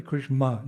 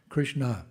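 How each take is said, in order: First: Krishma said with an m, imitating the passenger; wrong pronunciation. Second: Krishna said clearly with the n; correct pronunciation. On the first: Monk imitates the passenger's mistaken Krishma with an m. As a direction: mispronounce Krishma, dropping the n sound. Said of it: "it's the Hare Krishmas". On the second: Shown as a demonstration. Monk corrects the passenger, saying Krishna properly. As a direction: model Krishna carefully, with a clear n. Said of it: "No, say Krishna".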